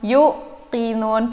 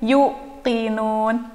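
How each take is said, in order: Both takes have the same delivery.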